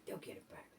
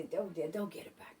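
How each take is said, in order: First: Soft unvoiced whisper of "They'll get it back"; hushed whisper to yourself. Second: Said in the usual way. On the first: Whispered repeat of reassurance.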